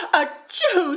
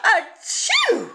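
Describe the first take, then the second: First: High sneeze, a bit louder; queen sneezes at the feathers; sneezing queen. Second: High loud sneeze with a laugh; king sneezes in a cloud of feathers; sneezing king. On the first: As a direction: sneeze it playfully. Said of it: "sneezed the queen". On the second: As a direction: sneeze it big and playful. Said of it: "wheezed the king". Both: A narrator's reading.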